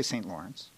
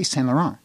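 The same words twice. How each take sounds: First: "Saint Lawrence" fully English, as saynt LOR-ence; anglicized pronunciation. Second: "Saint Laurent" as san-luh-ron, no French accent; French-derived "Saint Laurent" in an English mouth, silent T's; Anglophone Montreal pronunciation. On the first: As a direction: sound every English consonant in "Saint Lawrence". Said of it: "We don't say Saint Lawrence". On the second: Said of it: "say it without any French accent". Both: Shown as a demonstration.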